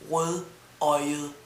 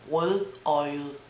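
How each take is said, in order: Both takes have the same delivery.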